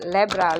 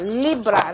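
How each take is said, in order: First: The first vowel sounds like 'eh'. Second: The first vowel sounds like 'ee'. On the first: The speaker calls it wrong. "hindi lebra" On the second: The speaker calls it right. "right pronunciation please"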